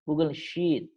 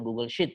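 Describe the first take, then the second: First: The vowel in the second word is long and drawn. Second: The vowel in the second word is short and quick. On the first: The speaker calls it right. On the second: The speaker calls it wrong.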